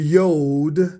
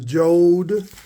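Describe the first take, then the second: First: It begins with a Y sound. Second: It begins with a J sound. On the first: The speaker calls it right. "the J is supposed to hold the Y sound as a yod" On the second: The speaker calls it wrong. "they're still pronouncing it wrong"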